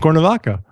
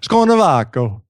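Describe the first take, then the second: First: The name is said with a plain accent. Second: The name is said with an Italian-sounding accent.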